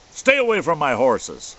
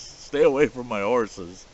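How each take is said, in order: First: Booming, roared warning, pitched up; bellowing threat. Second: Louder retelling of the warning, less full than the first; half-bellowed threat repeated; retold bellow. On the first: Retold or imitated. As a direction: bellow it like a huge man guarding his horses. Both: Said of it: "him bellowing at us".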